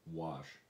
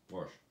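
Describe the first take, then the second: First: It is said without an r sound. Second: It is said with an r sound. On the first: This is the standard form used by outsiders. "or even say the word wash" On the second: This is the home dialect form. "It was wash"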